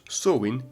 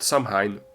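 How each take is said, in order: First: It is said the Irish Gaelic way. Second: It is said the way it is spelled. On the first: The speaker calls it right. "in Irish Gaelic" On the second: The speaker calls it wrong. "like it's written"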